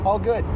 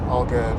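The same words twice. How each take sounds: First: It sounds lively, upbeat and enthusiastic. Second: It sounds flat, deflated and reluctant. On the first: The speaker genuinely means that things are fine. The speaker calls it right. "really say it with some enthusiasm" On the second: The speaker does not want to be in the conversation. The speaker calls it wrong. "you just sound either depressed or exasperated"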